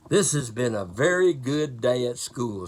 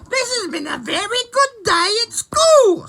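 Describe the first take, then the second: First: It is read in a plain, ordinary voice. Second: It is said in an imitated character voice.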